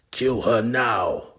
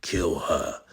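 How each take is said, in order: First: Louder, slower, higher command; villain roaring the kill order. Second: Said in the usual way. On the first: Acted. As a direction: bark it out slowly. Ordering the killing.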